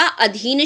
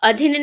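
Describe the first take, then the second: First: अधीन with a long "dhee"; correct long I. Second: अधीन with a clipped short I, "a-dhin"; wrong short I. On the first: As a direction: stretch the second vowel of अधीन. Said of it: "अधीन शब्द शुद्ध होता है". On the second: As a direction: say अधीन with the second vowel cut short. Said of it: "अधीन नहीं होता". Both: Shown as a demonstration.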